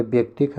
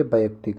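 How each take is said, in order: First: व्यक्तिक said as bek-tik; squeezed first syllable. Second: Said in the usual way. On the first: Shown as a demonstration. Teacher showing the wrong form, व्यक्तिक squeezed to bektik. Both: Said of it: "ये वाला गलत है".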